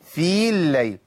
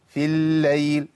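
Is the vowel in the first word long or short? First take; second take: long; short. First: The vowel of the first word is held long. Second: The vowel of the first word is cut short. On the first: The speaker calls it wrong. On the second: The speaker calls it right.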